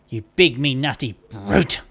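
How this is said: The word brute is strongly stressed.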